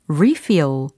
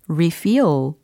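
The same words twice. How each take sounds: First: The stress is on the first syllable. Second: The stress is on the second syllable. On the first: It is used as a noun. "리필, 다시 채우다 라는 명사" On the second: It is used as a verb. "다시 채우다 라는 동사일 경우는 refill"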